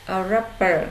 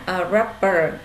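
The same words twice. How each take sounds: The two takes are said the same way.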